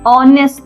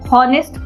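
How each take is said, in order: First: The word begins directly with a vowel sound. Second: The word begins with an audible h sound. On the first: The speaker calls it right. "ओ से start हो रहा है, vowel का sound आ रहा है" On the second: The speaker calls it wrong. "हॉनेस्ट पढ़ते हैं हम लोग? नहीं पढ़ते।"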